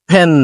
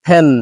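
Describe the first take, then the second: The two takes are said the same way.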